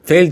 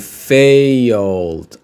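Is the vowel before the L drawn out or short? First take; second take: short; drawn out. First: The vowel is short, with no glide before L. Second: The vowel is drawn out, with a schwa before L. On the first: The speaker calls it wrong. "failed نیست" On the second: The speaker calls it right. "یه ذره کشیده میشه و به خاطر اون شوایی هستش که قبل از صدای ل"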